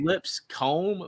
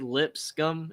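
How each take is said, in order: First: The last syllable sounds like 'comb'. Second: The last syllable sounds like 'scum'. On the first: This is how the spelling looks. "looks like Lipscomb" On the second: This is how the locals say it. "I think they say Lipscomb. It sounds almost like scum"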